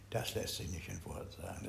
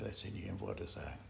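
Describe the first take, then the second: First: Said in the usual way. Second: Hushed repeat. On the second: Shown as a demonstration. Teacher repeats it to the group, hushed. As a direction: drop to a near whisper. Repeats the saying, far softer.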